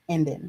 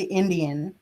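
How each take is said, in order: First: The word is said with two syllables. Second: The word is said with three syllables. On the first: This is how the community says it. "I N D I N" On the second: This is the form the community does not use. "we never say"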